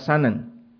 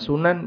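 First: The first vowel is a. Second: The first vowel is u. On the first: "bisa dibaca sanan" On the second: "Bisa dibaca sunan"

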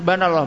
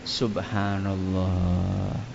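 First: It is said fast and clipped. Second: It is said slowly and fully.

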